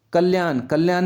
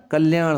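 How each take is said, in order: First: कल्याण ending in plain dental n; wrong dental n. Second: कल्याण ending in a curled-back ṇ; correct retroflex n. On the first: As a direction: say कल्याण as kalyaan, tongue forward. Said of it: "नहीं होता". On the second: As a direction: curl the tongue on the last sound of कल्याण. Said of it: "न की जगह क्या आएगा". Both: Shown as a demonstration.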